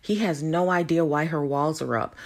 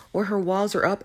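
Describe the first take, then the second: First: Said in the usual way. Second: Her pitched up and pushed; correcting a claim by stressing her walls. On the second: Shown as a demonstration. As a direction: hit the word her hard.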